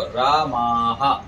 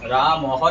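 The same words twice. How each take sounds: First: रामाः slow, with a long "maa" then "ha"; long final vowel. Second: रामः said quickly with a short second vowel; wrong short vowel. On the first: Teacher corrects the plural for students, रामाः drawn out as raa-maa-ha. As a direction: stretch the second vowel of रामाः before the breathed ending. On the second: Teacher shows students what not to say, रामः with short "ma". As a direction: keep the "ma" of रामः short before the final h. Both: Shown as a demonstration. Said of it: "रामः नहीं बोलेंगे यहाँ पर".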